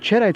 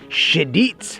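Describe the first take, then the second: First: The name is said with an American pronunciation. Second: The name is said with a French pronunciation.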